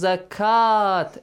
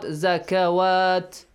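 First: The word has two syllables with no 'w' sound. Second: The word has three syllables with a 'w' sound. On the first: The speaker calls it right. "So it will be pronounced as zakat" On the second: The speaker calls it wrong. "not zakawat"

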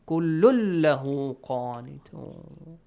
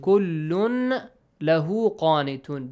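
First: The n sound merges into the following l. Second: The n sound is heard before lahu. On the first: The speaker calls it right. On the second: The speaker calls it wrong.

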